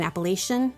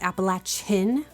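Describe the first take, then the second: First: The third syllable does not sound like 'latch'. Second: The third syllable sounds like 'latch'. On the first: The speaker calls it wrong. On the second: The speaker calls it right.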